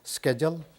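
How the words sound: It begins with an American 'sk' sound.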